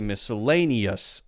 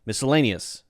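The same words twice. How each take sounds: First: The final-syllable vowel is a clear short u. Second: The final-syllable vowel is a weak, reduced schwa. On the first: "it's a very clear uh, uh, uh sound, okay, maybe that's the short U" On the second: "that's pretty close to almost not being there"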